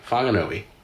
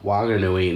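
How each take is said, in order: First: The name begins with an F sound. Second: The name begins with a W sound. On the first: This follows the usual rule for such words. The speaker calls it wrong. "not Whanganui" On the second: This is how the local people say it. The speaker calls it right. "it's still Wa Wanganui"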